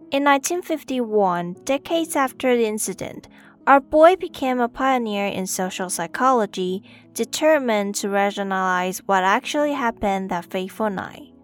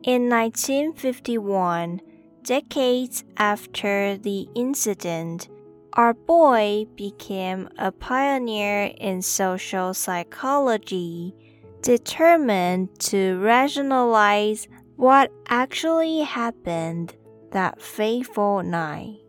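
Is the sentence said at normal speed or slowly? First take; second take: normal speed; slowly. First: It is said at normal speed. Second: It is said slowly.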